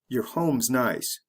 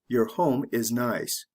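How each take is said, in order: First: Said quickly with words reduced and run together. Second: Said slowly with each word separate and full. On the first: "You say it the fast way" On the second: "The slow way"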